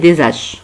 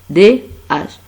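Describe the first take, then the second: First: A z sound links into the second word. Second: No linking sound comes before the second word. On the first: The speaker calls it wrong. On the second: The speaker calls it right.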